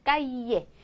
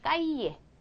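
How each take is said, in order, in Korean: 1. 더블 엘은 Y 소리로 나요. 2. 더블 엘은 Y 소리로 나요.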